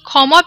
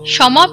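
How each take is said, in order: First: It is said with the Bengali pronunciation. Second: It is said with a Sanskrit 'sh'-like pronunciation. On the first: "আমরা বাংলায় বলি" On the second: "Hindi এবং সংস্কৃততে বলা হয়"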